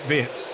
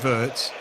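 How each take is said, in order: First: The name is said with a German pronunciation. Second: The name is said with an English pronunciation. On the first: "in Germany they call him" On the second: "the Anglophile version would be"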